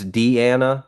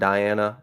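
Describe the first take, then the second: First: The name begins with a 'dee' sound. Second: The name begins with a 'dye' sound. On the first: The speaker calls it right. "It's Deanna" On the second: The speaker calls it wrong. "but not Diana"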